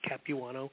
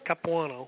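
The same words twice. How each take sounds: First: The name is pronounced the American way. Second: The name is pronounced the Italian way. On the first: "phonetically in a more Americanized way" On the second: "The old Italian way is Capuano. It's kind of a silent W-U type of thing"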